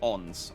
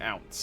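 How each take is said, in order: First: The vowel is a plain 'o' without 'ow'. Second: The vowel sounds like 'ow' in 'out'. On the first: The speaker calls it right. "it's apparently owns" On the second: The speaker calls it wrong. "I've been pronouncing it ounce"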